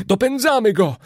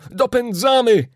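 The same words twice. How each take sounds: First: Excited call, louder and higher; triumphant hunting shout. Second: Repeated call, louder and higher still; rising excited yell; shouting. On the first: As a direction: cry out in the thrill of the chase. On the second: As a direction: cry "Dopędzamy!" even harder the second time. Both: A narrator's reading. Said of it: "wołał Kanadyjczyk".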